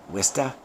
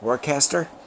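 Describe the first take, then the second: First: It is said in broad Massachusetts speech. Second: It is said the way the spelling looks. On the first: This is how Massachusetts locals say it. "in the uh, Mass vernacular" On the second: This is how outsiders read the name. "to everybody else, it looks like Worcester"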